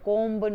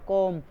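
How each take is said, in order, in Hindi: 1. इस शब्द के अंत में b ध्वनि होती है। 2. यह शब्द m ध्वनि पर खत्म होता है। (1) "कोम्ब नहीं बोला जाएगा" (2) "तो बी नहीं बोला जाएगा"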